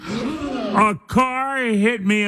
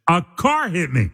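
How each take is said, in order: First: "A car hit me" stretched long and higher; drawn-out repeat. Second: Said in the usual way. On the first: Pretend. Host retelling his morning mishap as a joke, drawn-out for effect. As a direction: draw out "A car hit me" for comic emphasis.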